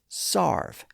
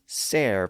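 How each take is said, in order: First: The vowel sounds like 'ar'. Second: The vowel sounds like 'air'. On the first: This is the shifted pronunciation. "was also sometimes pronounced as sarve" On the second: This is the older pronunciation. "pronounced serve at the time"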